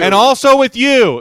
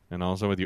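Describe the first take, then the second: First: It is said in a loud, full voice. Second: It is said in a quiet, subdued voice.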